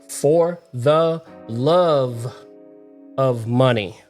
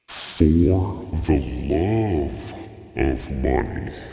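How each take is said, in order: First: It is said in a normal voice. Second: It is said in a deeper voice.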